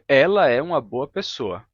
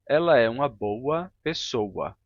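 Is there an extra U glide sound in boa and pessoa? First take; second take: no; yes. First: The words are said without an added U glide. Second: The words are said with an added U glide. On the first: "Eu diria" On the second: "muitos brasileiros dizem"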